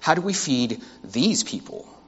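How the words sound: The word 'these' carries strong stress. These people are different from us.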